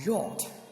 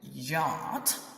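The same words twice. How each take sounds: First: It is said with a British pronunciation. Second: It is said with an American pronunciation. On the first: "while yacht is British accent or British pronunciation" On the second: "I'm saying yacht is American"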